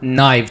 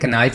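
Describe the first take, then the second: First: The word begins with an n sound. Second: The word begins with a k sound. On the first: The speaker calls it right. "छुरी को English में नाइफ कहते हैं" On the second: The speaker calls it wrong. "कनाइफ नहीं कहते"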